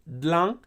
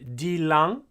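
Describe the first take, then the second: First: The word begins with a dl cluster. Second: The word begins with a full dil syllable. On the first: This is the quick contracted form. "it becomes dlang" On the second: This is the full, uncontracted form. "instead of dilang"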